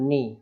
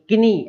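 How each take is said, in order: First: The word begins with an n sound. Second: The word begins with a k sound. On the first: The speaker calls it right. "केवल नी" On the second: The speaker calls it wrong. "ऐसा नहीं बोलना"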